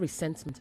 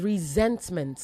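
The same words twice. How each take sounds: First: The consonant after 're' is an S sound. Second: The consonant after 're' is a Z sound. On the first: The speaker calls it wrong. "not resentment" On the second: The speaker calls it right. "it is resentment"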